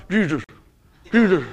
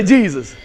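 First: Mock-stern, muffled "Jesus"; trying not to smile. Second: Loud, joyful "Jesus" with a big smile; smiling "Jesus". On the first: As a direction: say "Jesus" holding back the smile, badly. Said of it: "Can you say Jesus without smiling?". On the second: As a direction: let the smile burst through on "Jesus". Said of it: "can't even and say it without smiling". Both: Shown as a demonstration.

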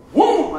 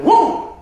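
First: Higher and louder sucked-in gasp; gasping noise. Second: Much higher and louder desperate gasp; bigger gasping noise. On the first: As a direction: gasp for air like you can't breathe. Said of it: "and I go". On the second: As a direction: gasp harder, desperate for air. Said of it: "I'm going". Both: Retold or imitated.

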